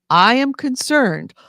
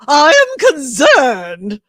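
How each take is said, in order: First: It is said in the speaker's normal voice. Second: It is said in a put-on transatlantic accent.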